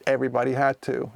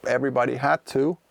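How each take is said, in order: Both takes have the same delivery.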